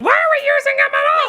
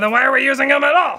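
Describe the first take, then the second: First: It is said in a funny puppet voice. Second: It is said in his normal voice.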